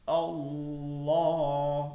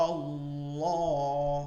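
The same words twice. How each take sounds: The two takes are said the same way.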